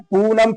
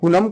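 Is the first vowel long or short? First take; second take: long; short. First: The first vowel is long and drawn out. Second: The first vowel is short and quick. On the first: It is spelled with double o. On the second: It is spelled with u.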